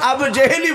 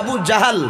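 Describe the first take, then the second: First: The second word is said with 'e' vowels. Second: The second word is said with 'a' vowels. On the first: This is how most people commonly say it. "আমরা প্রায় মানুষ আবু জেহেলই বলি" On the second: This is the original form of the word. "শব্দটা হচ্ছে আবু জাহাল"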